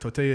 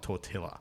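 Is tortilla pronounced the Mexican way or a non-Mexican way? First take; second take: Mexican; non-Mexican. First: The word is pronounced the way Mexicans say it. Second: The word is not pronounced the way Mexicans say it. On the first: The speaker calls it right. "Tortilla is how the Mexicans pronounce it" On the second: The speaker calls it wrong. "not tortilla"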